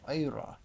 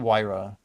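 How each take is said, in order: First: The name is said with a German-style pronunciation. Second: The name is said with a plain, non-German pronunciation. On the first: "Vyra sounds cooler. It's like the German pronunciation" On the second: "It's definitely Wyra"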